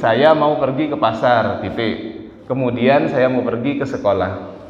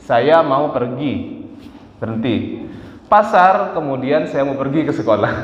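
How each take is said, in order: First: The pause comes after the word pasar. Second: The pause comes after the word pergi.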